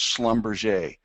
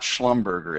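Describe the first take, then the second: First: The name is read unlike its spelling. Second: The name is read just as it is spelled. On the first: The speaker calls it right. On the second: The speaker calls it wrong. "It's not"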